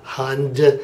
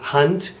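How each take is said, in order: First: The word ends with a voiced d sound. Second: The word ends with a voiceless t sound. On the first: The speaker calls it wrong. "and not Hund" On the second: The speaker calls it right. "I'm pronouncing it Hunt"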